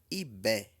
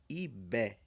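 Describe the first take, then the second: The two takes are said the same way.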